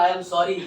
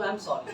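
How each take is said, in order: First: It is said in a threatening way. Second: It is said in a gentle, loving way.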